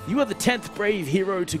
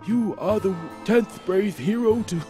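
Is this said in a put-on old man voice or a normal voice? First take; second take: normal; old man. First: It is said in the speaker's normal voice. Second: It is said in a put-on old man voice. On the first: "I'm going back to my normal voice now" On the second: "I lost the old man voice again"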